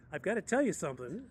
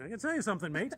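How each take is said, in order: First: Said in the usual way. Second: Higher, louder imitation Australian accent; put-on Australian twang for a quoted driver. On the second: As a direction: imitate an Aussie driver, raised pitch and volume. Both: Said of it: "in Australian accent".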